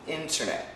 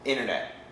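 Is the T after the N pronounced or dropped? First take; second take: pronounced; dropped. First: The T after the N is clearly pronounced. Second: The T after the N is dropped. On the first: "Proper pronunciation" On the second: "But daily pronunciation"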